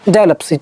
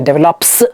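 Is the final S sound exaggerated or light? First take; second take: light; exaggerated. First: The final S sound is light and quick. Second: The final S sound is drawn out and exaggerated. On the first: The speaker calls it right. "just speak and continue" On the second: The speaker calls it wrong. "don't exaggerate the ending S sound"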